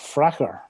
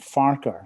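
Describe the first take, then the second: First: The name begins with a short 'Frack'. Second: The name begins with a drawn-out 'Far'. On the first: This is how local people say it. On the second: This is the pronunciation that follows the spelling.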